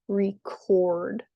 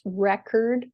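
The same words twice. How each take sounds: First: ReCORD, the verb, last syllable strong; "record" with light first beat, long stressed second. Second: RECord, the noun, first syllable strong; "record" with stressed first beat, weak second. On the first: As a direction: slowly lean on CORD in "record". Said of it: "the second syllable is stressed". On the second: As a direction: lean on REC in "record". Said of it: "the first syllable is stressed". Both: Shown as a demonstration.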